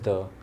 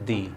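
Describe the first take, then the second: First: The word ends in a short 'uh' vowel. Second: The word ends in a long 'ee' vowel. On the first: It comes before a word starting with a consonant. "If a word begins with a consonant, so then we would pronounce it as the" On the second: It comes before a word starting with a vowel. "But if there is a vowel, ... then you can pronounce it as the"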